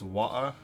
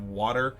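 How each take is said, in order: First: It is said in a British accent. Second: It is said in a plain American accent. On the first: "in an English or a British accent" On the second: "instead of"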